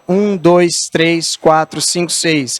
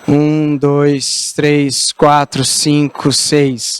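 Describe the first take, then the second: First: The voice sounds upright, like talking across a table. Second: The voice sounds slumped and heavy, as if lying down. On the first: The character is at a restaurant table. "Numa mesa, num restaurante" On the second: The character is sprawled on a sofa. "Se eu estou deitado no sofá, eu vou falar assim com você, que eu estou largado no sofá. Tudo isso aqui pesa"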